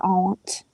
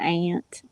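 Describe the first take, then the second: First: The vowel sounds like the one in taunt. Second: The vowel sounds like the one in ant. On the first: The speaker calls it right. "it's the correct cor- correct pronunciation" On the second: The speaker calls it wrong. "It's not an aunt"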